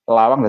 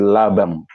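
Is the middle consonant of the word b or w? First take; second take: w; b. First: The middle consonant is a w sound. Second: The middle consonant is a b sound. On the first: "W tadi B" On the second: "B itu lesan atau logat Madura"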